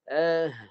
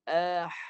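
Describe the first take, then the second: First: Voice and breath are combined in the sound. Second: Only breath is heard, with no voice. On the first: The speaker calls it right. "suara dan nafas dia gabungkan" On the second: The speaker calls it wrong. "Tu nafas saja. Suara tak ada"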